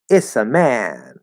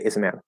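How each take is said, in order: First: The reduced phrase is said slowly and deliberately. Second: The reduced phrase is said quickly and smoothly. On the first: It sounds like a strange accent. The speaker calls it wrong. "now you sound like you have some weird accent" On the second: It sounds natural and fine. The speaker calls it right. "now you have to be speaking quickly"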